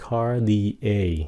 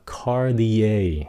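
Both takes have the same delivery.

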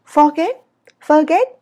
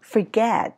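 First: "Forget" high, loud, "get" jerked upward; Vietnamese rising tone. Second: "Forget" with a smooth long "get"; English sliding intonation. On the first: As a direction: shoot "Forget" up, cut short. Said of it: "bay cái déo lên trên". (đọc "Forget" cao vút, cụt) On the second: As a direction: let "Forget" glide down gently. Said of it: "Rõ ràng từ forget nghe hay hơn". (đọc "Forget" trượt xuống mềm) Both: Shown as a demonstration.

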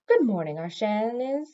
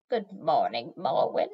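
First: Said in the usual way. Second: Put-on low, rasping greeting from an old hag; croaking old witch. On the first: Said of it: "She set her broom against the wall and said". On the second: A narrator's reading. Old chair witch greets Morwen, croaking. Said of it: "Chair Witch Arshanis croaked".

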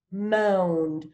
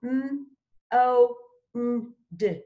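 First: Said in the usual way. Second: "M, o, n, d" as separate sounds with pauses; sounded out.

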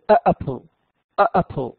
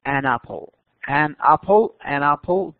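First: "آ apple" with a plain a, a small break before the vowel; the wrong "آ apple", heavy and halting. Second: "an apple" run together, n sliding into the vowel; the right "an apple", light and linked; smooth an apple. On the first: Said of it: "تحس إنها ثقيلة في النطق". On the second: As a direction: link "an apple" in one quick smooth breath. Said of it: "لما تنطقها بشكل سريع فتكون أخف". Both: Shown as a demonstration.

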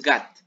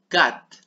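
First: Gat said with a voiced G at the start, wrongly; wrong G sound. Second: Cat said with a hard K sound at the start; correct C sound. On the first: Teacher showing kids the wrong way to say cat, with a G. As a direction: say gat with a G, not a K. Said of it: "No con G". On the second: Teacher showing kids the right K sound in cat. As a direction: say cat with a clean K, not a G. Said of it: "Ojo, aquí es con C". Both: Shown as a demonstration.

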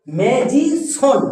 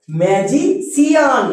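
First: "ম্যাজিশন" very slow and higher, ending "শন"; সঠিক উচ্চারণ. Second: "ম্যাজিশিয়ান" slowly, ending broken into "সি-আন"; ভুল উচ্চারণ. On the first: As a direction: stretch "ম্যা-জি-শন" as the correct model. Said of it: "আমরা কি বলবো?". ("ম্যাজিশন" খুব ধীরে, চড়া সুরে, শেষে "শন") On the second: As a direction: show the mistake: "ম্যাজি-সিয়ান", drawn out. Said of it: "আবার একে অনেকে ভুল করে উচ্চারণ করে". ("ম্যাজিশিয়ান" টেনে, শেষে "সি-আন") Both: Shown as a demonstration.

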